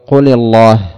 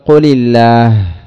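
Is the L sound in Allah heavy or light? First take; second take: heavy; light. First: The L sound is heavy and full. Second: The L sound is light and thin. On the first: The speaker calls it wrong. "لأن التغليظ هذا لا ينفك، وتقول قل الله" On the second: The speaker calls it right. "ترك التغليظ للام فتقول قل الله"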